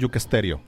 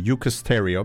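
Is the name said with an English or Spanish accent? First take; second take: Spanish; English. First: The name is said with a Spanish accent. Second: The name is said with an English accent. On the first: The speaker calls it wrong. "not Eucasterio" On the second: The speaker calls it right. "because we're going to practice our English"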